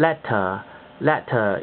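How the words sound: It has a clear, crisp t sound. "呢個係英式口音啦"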